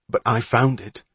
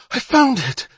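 First: Mildly smug comeback, stress on "found"; lightly gloating, far less excited; smug retort. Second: High, loud excited cry; excited boyish shout, much higher; breathless excitement. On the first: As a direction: answer back with a smirk. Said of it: "looked back with a smirk". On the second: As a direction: cry it out, thrilled by the find. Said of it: "breathless with excitement". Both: Acted.

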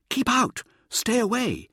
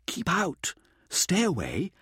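First: High, loud warning cry; warning shout. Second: Said in the usual way. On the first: A narrator's reading. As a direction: bark it out like a ward against evil. Mirza voicing the statues' warning.

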